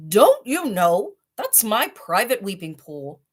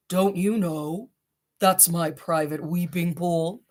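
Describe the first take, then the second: First: Only a hint of a gruff rhinoceros; mildly stern, a bit louder; deep angry voice. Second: Slow, put-on rhinoceros growl; deep angry voice. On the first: Rhinoceros catching father in his pool, mild anger. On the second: Rhinoceros scolding father in his pool, put-on deep voice. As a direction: drag it out like a sulky beast. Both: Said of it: "said a deep, angry voice".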